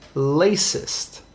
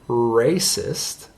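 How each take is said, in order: First: The word begins with an L sound. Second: The word begins with an R sound. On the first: "it might sound like lacist" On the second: "trying to say the word racist"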